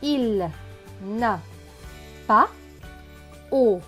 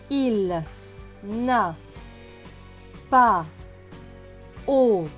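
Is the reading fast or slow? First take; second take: fast; slow. First: It is read more quickly and smoothly. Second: It is read slowly, syllable by syllable. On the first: "maintenant plus rapidement" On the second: "tout doucement"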